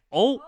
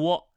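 First: The vowel is one pure o sound. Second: The vowel begins with a w glide. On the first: The speaker calls it right. "目前的标准就是认定o 为单元音，发音就念o" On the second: The speaker calls it wrong. "有人说读窝"

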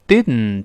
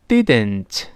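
First: The final t is released through the nose. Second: The final t is released through the mouth. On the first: "舌尖没有分开，鼻子出气儿" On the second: "这是一个标准的口腔爆破"

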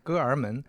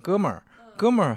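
First: The er sound comes after the first syllable. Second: The er sound comes after the second syllable. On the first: The speaker calls it wrong. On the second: The speaker calls it right.

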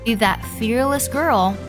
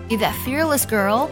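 First: It is read slowly and deliberately. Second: It is read at a normal, natural pace.

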